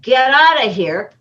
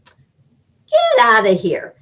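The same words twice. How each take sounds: First: It is said in a serious, harsh tone. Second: It is said in a light, joking tone. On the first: The speaker really wants the listener to leave. "I said the same words, but had completely different meaning" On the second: The speaker is only kidding. "you know, I'm kidding"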